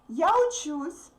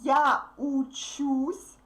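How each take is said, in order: First: The phrase is read quickly, at natural speed. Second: The phrase is read slowly and carefully. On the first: "Now listen to my fast reading" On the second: "Let's read all the forms slowly"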